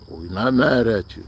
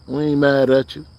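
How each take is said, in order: First: Said in the usual way. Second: "mad" pushed up with a rising tune; easygoing reassurance, "mad" lifted and rising; rising stress on mad. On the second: Real, not acted. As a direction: lift "mad" and let the line rise.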